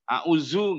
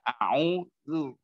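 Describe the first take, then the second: First: The middle consonant is a 'z' sound. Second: The middle consonant is a 'dh' sound. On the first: The speaker calls it wrong. "Zu nggak boleh itu yang dari Jawa. Auzu nggak boleh" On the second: The speaker calls it right. "Jadi dikit aja"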